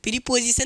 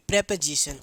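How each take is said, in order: First: The first vowel is a long 'ee' sound. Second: The first vowel is a short 'e' sound. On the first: The speaker calls it wrong. "प्रीपोजिशन नहीं" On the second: The speaker calls it right. "इसको पढ़ा जाता है real तरीके से प्रेपोजिशन"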